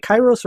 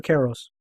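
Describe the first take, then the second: First: "Kairos" with first syllable like "eye"; pronunciation check. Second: "Karos" with first syllable like "care"; alternative pronunciation. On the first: Host checks guest's surname, trying "Kairos" as KY-rohs. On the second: Host offers guest the other surname reading, "Karos" as KAIR-ohs. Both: Shown as a demonstration. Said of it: "Did I pronounce your last name right?".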